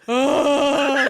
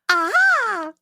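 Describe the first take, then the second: First: It is an old man's cry. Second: It is a baby's cry.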